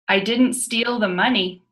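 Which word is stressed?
money. The stress is on the word money.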